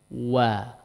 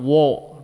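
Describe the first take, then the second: First: The vowel is open, with neutral unrounded lips. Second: The vowel is rounded, with lips pushed forward. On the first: The speaker calls it right. "maka dia harusnya kembali di posisi netral" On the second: The speaker calls it wrong. "Jadi tidak wo, dibiarkan di depan"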